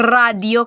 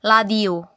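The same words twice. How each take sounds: First: "radio" with a long, exaggerated trilled R; rolled R. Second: "ladio" starting on a clear L instead of R. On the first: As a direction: roll the R hard at the start of "radio". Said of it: "Di sila ka-pronounce og R". (litok nga "radio", taas nga kurog sa R) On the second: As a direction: say "ladio" with L where radio has R. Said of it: "pronounce sa radio kay ladio". (litok nga "ladio", L imbes R) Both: Shown as a demonstration.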